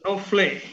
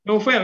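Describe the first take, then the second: First: "Novle" with the last vowel after the L; mispronounced name. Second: "Novel" said as "no-FEL"; corrected pronunciation. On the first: Host misreading the poem's title, saying "Novle". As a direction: say "Novle", ending in "-fle". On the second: Host checking the name's reading, saying "Novel" as "no-fel". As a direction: say "Novel" with the E before the L. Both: Real, not acted. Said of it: "bacanya novel ya".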